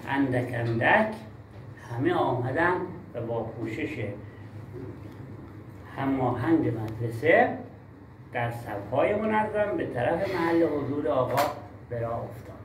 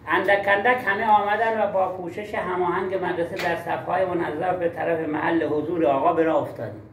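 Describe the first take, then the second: First: Reading with pauses. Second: Reading without pauses. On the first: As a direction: read it measured, pausing after each small group. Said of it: "یعنی مکس نکردی اختلال خواندنی هستی". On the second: Teacher demonstrates a reading disorder to colleagues, no pauses. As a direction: run the words together in one unbroken stream. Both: Shown as a demonstration.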